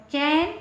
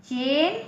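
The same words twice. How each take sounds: First: चैन with a big, open ऐ vowel; बड़ा ऐ. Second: चेन with the narrower ए vowel; छोटा ए. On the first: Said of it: "दो मात्रा लगी है". (चैन में मुंह खोलकर ऐ) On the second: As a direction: say चेन with ए, not open ऐ. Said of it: "इसमें एक मात्रा है अक्षर के ऊपर". (चेन में छोटी ए की आवाज़) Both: Shown as a demonstration.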